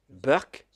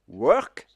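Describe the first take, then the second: First: It starts with a B sound, Indian English. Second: It starts with a W sound, standard English.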